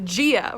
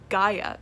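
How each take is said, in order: First: The name begins with a 'gee' sound. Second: The name begins with a 'guy' sound. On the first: The speaker calls it wrong. "The Gia really bothers me" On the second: The speaker calls it right. "Gaia is how you say it"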